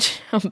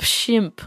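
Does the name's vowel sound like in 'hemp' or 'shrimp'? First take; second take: hemp; shrimp. First: The vowel sounds like the one in 'hemp'. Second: The vowel sounds like the one in 'shrimp'. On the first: The speaker calls it wrong. "Not Shimp" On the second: The speaker calls it right. "like shrimp without an R"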